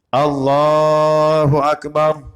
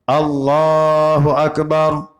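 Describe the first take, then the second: Both takes have the same delivery.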